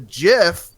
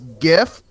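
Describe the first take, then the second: First: The word begins with a soft J sound. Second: The word begins with a hard G sound. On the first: "like peanut butter" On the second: "with a hard G"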